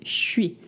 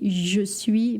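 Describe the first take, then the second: First: The syllables slur together into a 'sh' sound. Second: Both syllables are said fully and separately. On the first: The speaker calls it right. "they say je suis ... It's a lot of sh sound" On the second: The speaker calls it wrong. "they don't say oui, je suis"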